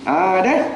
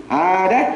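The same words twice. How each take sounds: Both takes have the same delivery.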